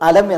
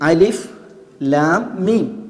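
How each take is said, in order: First: The letters are read as one short word. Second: Each letter is spoken by its full name. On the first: The letters form an ordinary word. "അലം അക്ഷരങ്ങളെയാണ് വായിക്കുന്നത്" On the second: The letters stand alone as separate letters. "ഇവിടെ നമ്മൾ അക്ഷരങ്ങളുടെ പേരാണ് വായിക്കുന്നത്"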